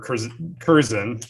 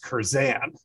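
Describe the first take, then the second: First: The stress is on the first syllable. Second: The stress is on the last syllable. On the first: "I've always said Curzon or Curzon" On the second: "Rowdy says Curzan at the end"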